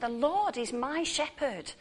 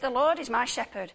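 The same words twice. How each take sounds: First: It is said with wonder and amazement. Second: It is said plainly, as a statement of fact.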